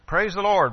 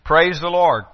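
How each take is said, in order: First: It sounds like a joyful exclamation. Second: It sounds like a firm command.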